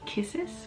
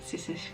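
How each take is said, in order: First: The word begins with a hard K sound. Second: The word begins with a soft S sound. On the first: "pronunciation is actually Kissis, so with a K" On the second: "I've been calling it Cissis for a long time"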